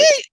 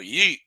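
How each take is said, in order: First: It sounds excited. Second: It sounds approving.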